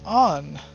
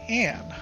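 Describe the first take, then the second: First: The vowel sounds like the one in cot. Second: The vowel sounds like the one in cat. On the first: This is how the name is said in the game's English dub. "in the game, the English speakers that say" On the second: This is the usual English pronunciation of the name. "in English we pronounce it"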